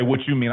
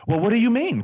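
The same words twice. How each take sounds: First: Said in the usual way. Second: High, over-proper professional voice; insurance-guy voice. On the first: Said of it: "I don't say, "What you mean?". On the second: Shown as a demonstration. Agent answering mentor before clients, high put-on voice. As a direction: stay in polite salesman character. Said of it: "I'm still insurance guy".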